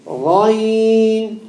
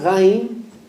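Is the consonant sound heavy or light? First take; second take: heavy; light. First: The consonant is made heavy. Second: The consonant is made light. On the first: The speaker calls it right. "The ghain is a heavy letter" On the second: The speaker calls it wrong. "You just turned the ghain into a what? A light"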